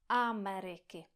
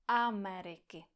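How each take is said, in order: No difference in how they are said.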